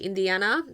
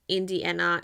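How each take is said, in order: First: The name has a Spanish pronunciation. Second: The name has an English pronunciation. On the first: The speaker calls it right. "we pronounce it in Spanish" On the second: The speaker calls it wrong. "it's not Indiana"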